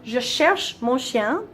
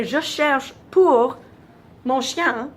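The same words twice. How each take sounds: First: "Je cherche mon chien" said very slowly and carefully; slow model sentence without pour; French demo. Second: "pour" stretched very slowly and said louder; a slow, louder take of "Je cherche pour mon chien"; wrong French with pour. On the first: Teacher modelling the correct French sentence slowly. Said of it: "if I'm saying". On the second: Teacher demonstrating the wrong form, pour drawn out. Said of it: "but when I say". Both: Shown as a demonstration.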